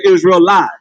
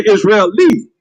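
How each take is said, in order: First: "Israelite" with a long I, ending like "light"; chosen pronunciation. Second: "Israeli" with a final "lee"; mispronounced Israelite. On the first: Preacher corrects the listeners, "Israelite" ending in "light". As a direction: say "Israelite" with "eye" in the last syllable. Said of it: "So we gonna say Israelite". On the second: Preacher quotes how they say it, "Israeli" ending in "lee". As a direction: end "Israeli" on a long E sound. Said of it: "The I sound is what?". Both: Shown as a demonstration.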